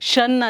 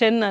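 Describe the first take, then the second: First: The syllable is said with a vowel like 'shun'. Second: The syllable is said with a vowel like 'shen'. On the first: "ಶನ್ ಅಲ್ಲ" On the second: "ಶೆನ್ ಅಲ್ಲ"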